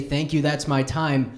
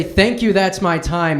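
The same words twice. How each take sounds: First: Said in the usual way. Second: Flustered sign-off. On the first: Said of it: "waiting for the laughter to die down to say". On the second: Retold or imitated. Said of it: "I have enough time to say".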